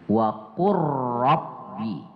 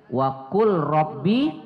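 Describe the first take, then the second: First: The l is merged into the following r. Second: The l is pronounced separately before the r.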